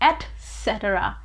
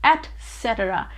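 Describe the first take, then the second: First: The word begins with an 'et' sound. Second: The word begins with an 'et' sound.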